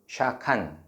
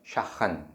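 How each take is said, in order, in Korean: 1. 가운데 자음은 단단한 k 소리예요. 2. 가운데 자음은 숨이 섞인 h 소리예요.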